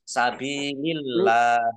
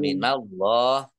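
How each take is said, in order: First: The L in Allah is light and thin. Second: The L in Allah is heavy and thick. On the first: "dibaca tipis" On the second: "tebal ya, dibaca tebal"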